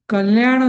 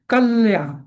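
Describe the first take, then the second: First: The first syllable is short and light, unstressed. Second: The first syllable closes on l and is stressed. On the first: The speaker calls it wrong. "कल्याण असं नाही म्हणायचं" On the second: The speaker calls it right. "कल कल आणि तो जो आधीचं जे जोडाक्षर असतं ... ते आधीच्या अक्षराला पकडायचं"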